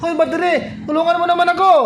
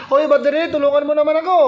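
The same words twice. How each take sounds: First: Higher, pleading cartoon voice for the solar panel; solar panel begging voice. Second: Solar asking for help. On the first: Solar panel begs the battery for help, higher pleading mock voice. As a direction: play the needy solar panel calling the battery. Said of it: "Ganon yung boses niya". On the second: Retold or imitated. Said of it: "Ganon yung boses niyan eh".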